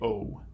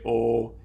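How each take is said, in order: First: The vowel glides toward a w sound. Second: The vowel stays steady with no glide. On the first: The speaker calls it right. "you say O" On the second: The speaker calls it wrong. "You don't say O"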